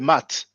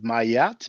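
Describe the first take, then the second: First: It has one vowel and no break. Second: A y glide joins the two vowels. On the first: "try not to say mat" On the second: "please don't pronounce it mayat because there's no y"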